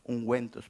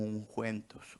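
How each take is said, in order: First: "ungüentos" said again with a clear hard g and a w sound, "un-gwen-tos"; corrected pronunciation. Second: "ungüentos" with a throaty j sound, "unjuentos"; slip of the tongue. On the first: Shown as a demonstration. Preacher corrects himself before his listeners, careful and clear. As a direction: fix the word "ungüentos" with a firm hard g. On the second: Real, not acted. Preacher stumbles over a Bible-era word, mispronounced. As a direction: trip over "ungüentos", saying the g like a Spanish j. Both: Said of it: "perdón".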